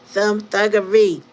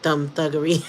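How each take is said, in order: First: "Thumb thuggery" slow and much louder, falling hard on "thuggery"; punched repeat. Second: Said in the usual way. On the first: Shown as a demonstration. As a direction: drag out "thuggery" and hit it.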